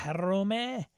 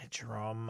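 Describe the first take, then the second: First: "Jerome" as heh-ROH-meh, drawn out and higher; foreign-style attempt. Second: "Jerome" said the English way, in two syllables; English-style attempt. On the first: Host struggling with an accented name, "Jerome" as heh-ROH-meh. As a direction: sound the final e of "Jerome", with a breathy H start. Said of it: "there's accents on his name". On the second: Unsure host trying a name he can't say, "Jerome" in English style. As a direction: quietly try "Jerome" with a silent final e. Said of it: "uh, I can't say your". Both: Shown as a demonstration.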